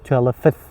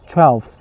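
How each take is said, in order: First: The sounds of the word are broken apart. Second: The sounds of the word are run together. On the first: The speaker calls it wrong. "You cannot say twelfth" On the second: The speaker calls it right. "You should say twelfth altogether"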